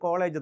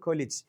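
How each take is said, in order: First: The second vowel sounds like a long 'ay'. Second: The second vowel sounds like a short 'i'. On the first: This is how people locally read it. The speaker calls it wrong. "നമ്മൾ വായിക്കുന്നത് കോളേജ്" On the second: This is the actual pronunciation. The speaker calls it right. "യഥാർത്ഥ ഉച്ചാരണം കൊലിജ്"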